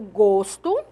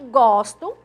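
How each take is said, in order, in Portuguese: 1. A vogal o tônica é fechada. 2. A vogal o tônica é aberta. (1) "som fechado" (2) "som aberto"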